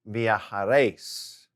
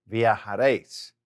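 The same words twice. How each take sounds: First: Viajaréis said slowly, stress on réis. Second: Said in the usual way. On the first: Shown as a demonstration. Teacher modelling the vosotros form slowly. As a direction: sound out viajaréis carefully for the class. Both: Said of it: "And for the vosotros form".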